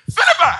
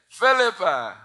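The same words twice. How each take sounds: First: The name is screamed loudly. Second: The name is said calmly and quietly.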